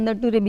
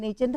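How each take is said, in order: First: It is said as na-tu-re, three syllables. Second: It is said as nay-cher, two syllables. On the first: The speaker calls it wrong. "નટુરે નામની joke છે" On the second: The speaker calls it right. "એ નેચર શબ્દ આપણે બોલીએ છીએ"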